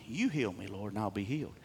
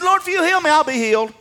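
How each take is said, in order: First: Low, hushed matter-of-fact quote; quiet statement. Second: Very high, loud declaration; confident cry. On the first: Preacher restating the prophet's prayer as a statement, quiet certainty. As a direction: state it softly as settled. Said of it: "he's making a statement". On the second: Preacher as the prophet asking for healing, confident shout. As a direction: shout it to God with total certainty. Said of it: "What confidence did Jeremiah have?". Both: Acted.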